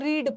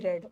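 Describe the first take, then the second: First: The vowel is long, rhyming with 'need'. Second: The vowel is short, rhyming with 'bed'. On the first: It is the present tense. "Present tense में इसको रीड पढ़ते हैं" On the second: It is the past tense. "Past tense में रेड"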